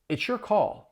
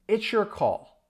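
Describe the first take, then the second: First: The phrase is spoken at a faster pace. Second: The phrase is spoken at a slow pace. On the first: "Now faster" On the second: "Let's say this sentence slowly"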